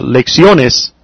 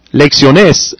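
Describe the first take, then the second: First: Lecciones stressed on the next-to-last syllable, the O drawn out. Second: Lecciones with the stress moved to the last syllable, -NES; stress on final E. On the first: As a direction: lean on the O in lecciones, slowly. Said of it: "that were the proper way to". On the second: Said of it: "then I would put the accent on the E". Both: Shown as a demonstration.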